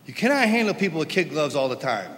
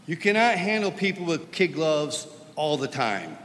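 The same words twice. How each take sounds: First: "cannot" louder, faster repeat; stress on cannot. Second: Said in the usual way. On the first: Real, not acted. Preacher repeating his point to the congregation, pressing "cannot". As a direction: drive home "cannot" again, quicker and louder.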